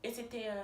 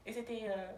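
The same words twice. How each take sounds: The two takes are said the same way.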